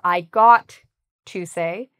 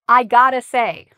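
First: The words got to are said in full. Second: The words got to are reduced to gotta. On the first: "instead of saying I have to say or I got to say" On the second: "So this is a reduction"

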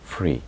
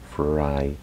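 First: The vowel sounds like 'ee'. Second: The vowel sounds like 'eye'. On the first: The speaker calls it wrong. "Muchas veces lo pronunciamos mal" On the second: The speaker calls it right. "la Y al final se pronuncia I"

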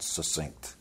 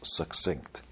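First: The double c is said as a plain s. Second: The double c is said as ks. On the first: The speaker calls it wrong. "not succinct" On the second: The speaker calls it right. "It's like success"

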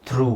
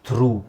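First: The word ends in a long oo vowel. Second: The same.

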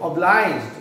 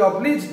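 First: The middle vowel sounds like 'eye'. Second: The middle vowel sounds like 'ee'. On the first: "ऑब्लाइज मतलब आभार व्यक्त करना" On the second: "देखो ये ऑब्लीज नहीं है"

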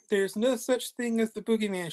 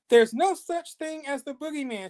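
First: It is said softly and quietly. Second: It is shouted loudly.

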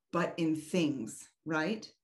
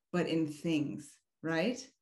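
The two takes are said the same way.

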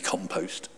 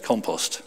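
First: It is said with an American pronunciation. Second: It is said with a non-American pronunciation.

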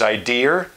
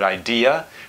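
First: The word ends with an added R sound. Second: The word ends in a vowel with no R.

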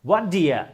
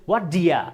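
Both takes have the same delivery.

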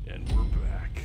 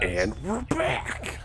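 First: It is said with little energy or enthusiasm. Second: It is said with more energy and enthusiasm. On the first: The speaker calls it wrong. "You didn't say that with enough. Pizzazz" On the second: The speaker calls it right. "There you go"

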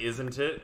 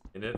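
First: The phrase is said in full, all sounds clear. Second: The phrase is mumbled, reduced to sound like in it. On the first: "I just say, isn't it?" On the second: "I like kind of mumble it, and then it comes out as... In it almost"

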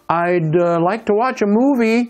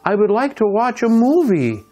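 First: 'I would' is shortened to one syllable 'I'd'. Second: Both words 'I would' are fully pronounced.

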